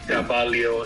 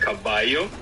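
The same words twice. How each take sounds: First: The double L is pronounced as an L sound. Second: The double L is pronounced as a Y sound. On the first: This is how speakers of a Philippine Spanish creole say it. "They pronounce it like a Leo sound" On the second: This is the usual way most speakers say it. "we usually say yo"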